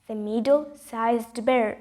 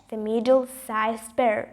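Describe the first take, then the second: No difference in how they are said.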